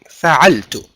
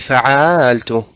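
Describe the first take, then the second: First: Every vowel in the word is kept short. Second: A vowel in the word is drawn out. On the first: The speaker calls it right. "That don't prolong anything" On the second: The speaker calls it wrong. "Don't say فعلت. Don't prolong anything"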